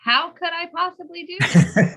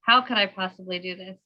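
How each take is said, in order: First: It sounds curious and ready to solve it. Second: It sounds hopeless and defeated.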